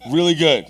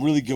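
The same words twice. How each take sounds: First: "Really good" set apart, higher and louder; comic emphasis on "Really good"; emphatic repeat. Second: Said in the usual way. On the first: Acted. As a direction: punch "Really good" after a pause.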